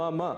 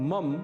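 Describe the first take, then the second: First: The word ends with a short a vowel. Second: The word ends on a bare m sound. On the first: The speaker calls it right. "इसका शुद्ध उच्चारण है मम। ... अंत में अ की ध्वनि अवश्य आनी चाहिए।" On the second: The speaker calls it wrong. "इसे मम बिल्कुल भी नहीं कहना है।"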